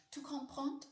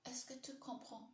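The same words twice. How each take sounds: First: Higher, firmer French accent attempt; retry it in an amateur French accent, pitched up; imperfect French accent. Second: Higher-pitched learner's French accent; imperfect French accent. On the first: Streamer retrying the French after faulting the accent, higher imperfect French accent. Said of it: "I don't have a perfect French accent". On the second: Streamer testing a French phrase for viewers, imperfect French accent. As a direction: have a careful go at a French accent. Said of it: "this accent's all wrong". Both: Shown as a demonstration.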